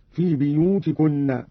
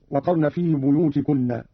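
First: بيوتكن read "biyutikunna", starting bi; kasra on ba. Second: Said in the usual way. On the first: Shown as a demonstration. Teacher shows Qalun's reading, بيوتكن begun with "bi". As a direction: open بيوتكن with bi instead of bu. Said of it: "قرأ قالون بكسر الباء هكذا". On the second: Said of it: "قرأ قالون بكسر الباء".

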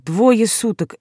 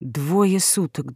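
First: Said in the usual way. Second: Very slow, soft and low, like an echo; echoing in her head. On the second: A narrator's reading. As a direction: let it ring hollow, drawn out. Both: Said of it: "эхом звучал в ушах приговор".

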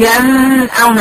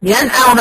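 First: ينأون slowed, the nun stretched and cut off; wrong nun. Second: ينأون said straight through, nun not lengthened; right nun. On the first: Teacher showing students the wrong way to say ينأون, drawn out. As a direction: show the mistake, drag the nun in ينأون. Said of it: "مش هقطع فيها الصوت ولا هطول فيها زمن". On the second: Teacher giving students the correct ينأون, straight and clear. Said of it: "بدون زمن". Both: Shown as a demonstration.

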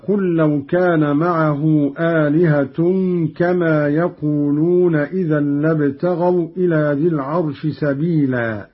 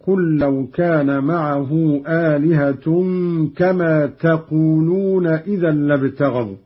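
First: Said in the usual way. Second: تقولون as "taqūlūna", starting on t; read with ta. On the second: Shown as a demonstration. Teacher demonstrating Qalun's address form, تقولون begun with a t. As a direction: recite تقولون with ta in place of ya. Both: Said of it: "قرأ قالون بالتاء".

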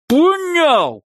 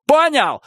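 First: Even higher, louder scream. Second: High angry shout; angry demand. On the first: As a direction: scream the repeat harder. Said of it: "повторил он". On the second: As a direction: demand an answer angrily. Repeated threat, first take. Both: Acted.

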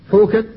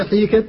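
First: "حوكت" with a full long u; pure waw vowel. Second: "حيكت" with a full long i; pure ya vowel. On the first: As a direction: say "حوكت" with a clear oo after the h. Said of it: "النطق به بالياء وبالواو". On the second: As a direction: say "حيكت" with a clear ee after the h. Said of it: "ويجوز أن تقول". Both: Shown as a demonstration.

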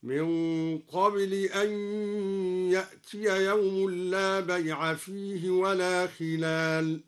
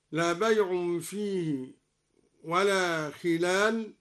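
First: بيع and خلال chanted slowly with fatha, bay'a and khilala; slow tajweed chant with naṣb on بيع and خلال; Quranic recitation. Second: Said in the usual way. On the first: Shown as a demonstration. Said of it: "بنصب بيع وخلال هكذا". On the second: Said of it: "قرأ الدوري بنصب بيع وخلال".

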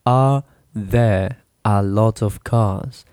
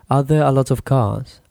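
First: "Are there a lot of cars?" said slowly, word by word; teacher spelling out "Are there a lot of cars?" piece by piece; broken down slowly. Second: Said in the usual way. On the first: Shown as a demonstration. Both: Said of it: "you break it down".

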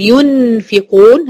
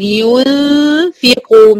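First: "ينفقون" with a plainly tongued "yun-fiqun"; full clear noon. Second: "ينفقون" with a long nasal hum replacing the noon; hidden noon, ghunna. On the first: Teacher shows what to avoid, "ينفقون" with clear noon. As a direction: pronounce the noon fully in "ينفقون". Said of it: "لا، ولا أقول". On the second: Teacher models ikhfa, "ينفقون" with held nasal hum. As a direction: hum through the nose before fa in "ينفقون". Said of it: "مش هنطق نون خالص". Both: Shown as a demonstration.

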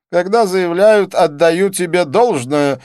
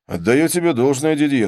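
First: High, slow, loud quoting back; pompous, drawn-out echo of a compliment; self-satisfied. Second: Said in the usual way. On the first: A narrator's reading. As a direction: pronounce it smugly and slowly. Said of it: "заметил он с самодовольным видом".

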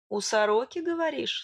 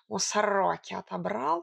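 First: Suspicious. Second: Boastful cat. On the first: Narrator doubting the cat's magpie story, suspicious. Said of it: "с подозрением прищурилась я". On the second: Cat showing off his found coin, boastful. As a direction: brag lightly in a purring cat voice. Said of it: "похвалился он". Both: A narrator's reading.

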